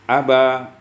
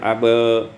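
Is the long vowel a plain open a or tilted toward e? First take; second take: open a; toward e. First: The long vowel is a plain open a. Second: The long vowel leans slightly toward e. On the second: "atau dibaca taklil"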